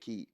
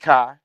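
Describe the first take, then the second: First: The vowel sounds like the word 'key'. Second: The vowel sounds like the word 'sky'. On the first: "you can pronounce it like a key" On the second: "some people call it Planet Kai"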